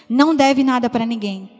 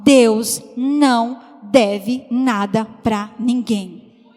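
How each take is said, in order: First: Said in the usual way. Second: Slow, deliberate preaching line; emphatic slow declaration. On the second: Real, not acted. Preacher telling the church God owes nobody, very slow emphasis. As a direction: lean on each word, very slow.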